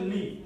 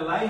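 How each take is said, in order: First: The vowel sounds like 'ee'. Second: The vowel sounds like 'eye'. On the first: The speaker calls it right. "এটা হয়ে যাবে হচ্ছে লি" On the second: The speaker calls it wrong. "এটা লাই হবে না"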